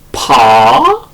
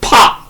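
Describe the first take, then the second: First: The pitch rises from mid to high. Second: The pitch drops sharply from high. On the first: "제이 성으로" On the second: "제사 성으로"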